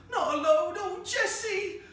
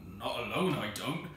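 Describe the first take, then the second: First: Very high, loud wail, drawn out; frantic cry. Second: Firm refusal, kept low; low, firm tones. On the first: Acted. Vicar's wife calls the maid for help, frantic shriek. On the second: A narrator's reading. Manservant refuses to go after lunatic, low and firm. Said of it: "said Andrew in low, firm tones".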